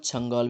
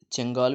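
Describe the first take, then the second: First: چھنگال with short "a": chan-GAAL; bookish a-vowel variant. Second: چنگال with an "e": chen-GAAL; e-vowel variant. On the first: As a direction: say چھنگال as "changaal". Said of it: "کتابی جو ہے وہ چھنگال". (چھنگال، چ پر زبر، کتابی تلفظ) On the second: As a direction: say چنگال as "chengaal". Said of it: "چنگال بھی بولتے ہیں اور". (چنگال، چ کے نیچے زیر کے ساتھ) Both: Shown as a demonstration.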